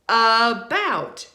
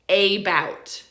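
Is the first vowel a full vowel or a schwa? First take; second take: schwa; full vowel. First: The first vowel is a reduced schwa sound. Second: The first vowel is a full, stressed vowel. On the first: The speaker calls it right. "It's a schwa, right? So it's about" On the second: The speaker calls it wrong. "It's not about"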